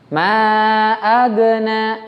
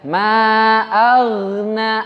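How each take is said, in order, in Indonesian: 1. Bunyi gh memantul dengan gema kecil. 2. Bunyi gh mengalir halus dengan kesan berayun. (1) "diqalqalahkan atau dipantulkan... itu mantul. Itu salah" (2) "Mengayun, mengayun istilahnya"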